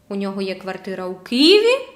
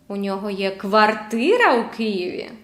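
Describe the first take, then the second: First: The pitch rises on the word Києві. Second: The pitch rises on the word квартира. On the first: The question is whether it is in this city or another. "У Києві чи в іншому місті, in another city?" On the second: The question is whether it is an apartment or a house. "Квартира чи будинок?"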